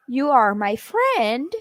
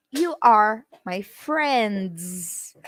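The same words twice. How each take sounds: First: Said plainly to one friend. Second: "You" stressed, "You are my friends" said very slow. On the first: Teacher addressing a single friend, plain. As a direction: normal even delivery of "you are my friend". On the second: Teacher showing plural to a group, stressing "You". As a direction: slowly lean on "You" to show plural. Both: Shown as a demonstration. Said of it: "you are is singular and plural".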